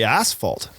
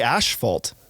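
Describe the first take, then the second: First: The first syllable sounds like 'ass', American style. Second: The first syllable sounds like 'ash', Canadian style.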